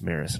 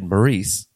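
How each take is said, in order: First: The name is said as plain Maris. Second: The name is said as Maurice. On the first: The speaker calls it right. "no, it's just Maris" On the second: The speaker calls it wrong. "But I said Maurice at first"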